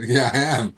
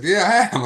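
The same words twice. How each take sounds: First: Loud, keen yes; emphatic agreement. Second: High, loud, excited yes; amazed agreement. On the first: To woman asking if he'll quit drinking, emphatic agreement. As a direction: re-enact a firm, eager confirmation. Answers her knowing question, astonished. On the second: To woman asking if he'll quit drugs, amazed agreement. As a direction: re-enact an astonished, bursting confirmation. Second answer, more amazed. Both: Retold or imitated.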